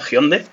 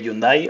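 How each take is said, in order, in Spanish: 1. El nombre se dice con pronunciación coreana. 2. El nombre se dice con pronunciación española.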